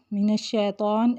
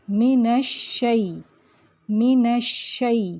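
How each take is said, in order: First: من الشیطان with شے as a long e; wrong majhool shay. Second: من الشی slowly with شئی as a diphthong; correct shay. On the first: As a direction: show the mistake, say شے. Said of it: "مجہول ہے، غلط ہے". (من الشیطان میں شے مجہول) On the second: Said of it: "پڑھیں گے شئی". (من الشی میں شئی درست) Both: Shown as a demonstration.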